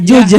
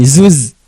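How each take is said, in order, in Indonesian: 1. Kata ini diawali dan diakhiri dengan bunyi j. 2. Kata ini diawali dan diakhiri dengan bunyi z. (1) "kadang orang Sunda juj" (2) "bukan zuz"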